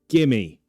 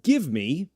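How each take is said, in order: First: The two words run together as one reduced word. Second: Both words are said fully and separately. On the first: The speaker calls it right. "say it like this. Gimme" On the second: The speaker calls it wrong. "We won't say it like, give me a hand"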